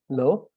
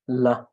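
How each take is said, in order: First: It is said with a questioning tone. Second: It is said with a flat, acknowledging tone. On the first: The listener asks for the question to be repeated. "which is like in more tone with the question" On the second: The listener has heard and accepted what was said. "it's acknowledging what has been said"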